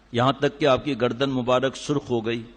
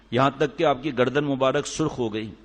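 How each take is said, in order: No difference in how they are said.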